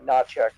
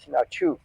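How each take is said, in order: First: The name is said the American way. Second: The name is said the Ukrainian way. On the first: This is how most people say it in the US. "most people in the U S say" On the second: This is how it is said in its home country. "the correct pronunciation that you'd find in the Ukraine"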